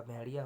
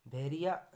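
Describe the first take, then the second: First: Said in the usual way. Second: भेड़िया said as 'bheriya'; r for flap. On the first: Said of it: "होता है". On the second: Shown as a demonstration. Teacher showing an error, भेड़िया with simple r. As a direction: use a plain r in भेड़िया. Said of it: "नहीं होता".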